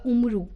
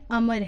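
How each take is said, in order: First: The name is said as 'Umru', ending in 'oo'. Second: The name is said as 'Amar', with no final vowel. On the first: It is read letter by letter from the spelling. The speaker calls it wrong. "लिखने में अगर हम पढ़ें लिखा हुआ तो ये होगा" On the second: It is the way the name is actually said. The speaker calls it right. "अमर है"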